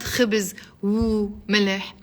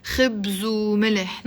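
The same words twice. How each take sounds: First: خبز وملح in separate words, "khibiz, u, mileh"; no liaison. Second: خبز وملح linked, "khibzu mileh"; liaison. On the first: Teacher shows what to avoid, unlinked "khibiz u mileh". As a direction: split off the و and add a vowel inside khibiz. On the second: Teacher demonstrates the liaison, linked "khibzu mileh". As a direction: carry the و onto خبز as a u: "khibzu". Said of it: "when I'm doing the liaison". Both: Shown as a demonstration.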